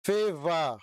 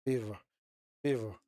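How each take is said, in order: First: "Favor" drawn out in two strong syllables; sounding it out. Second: "Favor" tried out low and short; testing the pronunciation. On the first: Streamer checking how it's pronounced, sounding out "Favor" emphatically. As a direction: hit "Favor" firmly, stretching both syllables. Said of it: "that is how it's pronounced". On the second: Streamer doubting his own word, testing "Favor" low and short. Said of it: "Why do I keep saying favor". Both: Real, not acted.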